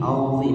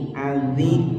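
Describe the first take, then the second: First: "auzi" with a heavy, thickened emphatic z; "auzi" as the heavy Arabic sound; thick zho. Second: "Azi" with a thin, light z; "Azi" as the contrasting thin sound. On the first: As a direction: say "auzi" full-mouthed, tongue back raised. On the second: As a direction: say "Azi" without thickening the consonant. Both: Shown as a demonstration. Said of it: "auzi beda ya".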